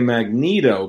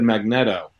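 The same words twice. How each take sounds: First: The start does not sound like 'magnet'. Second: The start sounds like the word 'magnet'. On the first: "other people say Magneto" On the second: "I always said Magneto because I was like magnets"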